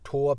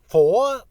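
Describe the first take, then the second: First: The name begins with a hard t sound. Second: The name begins with a soft th sound. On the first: "In German you would probably pronounce it Tor" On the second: "do you pronounce it uh, Thor"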